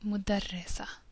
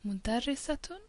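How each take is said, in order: First: The word ends in a plain -a sound. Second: The word ends in a full -atun sound. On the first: This is how it is said in normal speech. "we don't pronounce the vowels and we would just say" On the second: The ending is shown in full for learning. "I'm pronouncing it this time"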